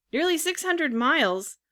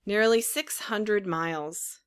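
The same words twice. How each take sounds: First: Much higher incredulous repeat; astonished echo. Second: Said in the usual way. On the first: A narrator's reading. Puppet hearing how far the seacoast is, astonished echo. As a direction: echo it back in disbelief, pitch leaping. Puppet echoes the answer in dismay.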